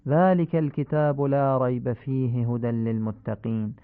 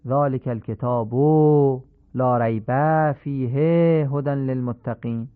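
First: «ذلک الکتاب» with the short vowels kept short; correct recitation. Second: «لا ریب فیه» dragged out slowly; undesired lengthening; wrongly stretched endings. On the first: Teacher models proper recitation of al-Baqara. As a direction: clean measured reading. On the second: Teacher imitates the faulty Quran reading. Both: Shown as a demonstration.

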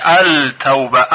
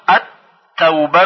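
First: التوبه said as al-tawba with the l heard; التوبه spoken slowly as al-tawba; as written, lam sounded. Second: التوبه said as at-tawba with doubled t; التوبه read at-tawba, l assimilated; correct reading, lam silent. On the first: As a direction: read التوبه letter by letter, l included. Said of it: "این کلمه با لام نوشته شده". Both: Shown as a demonstration.

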